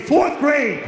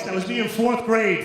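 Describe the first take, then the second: First: Loud, higher, laughing outrage; indignant exclaim. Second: Said in the usual way. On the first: Real, not acted. Comic repeating the punchline to the crowd, laughing loud outburst. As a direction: blurt it in mock disbelief.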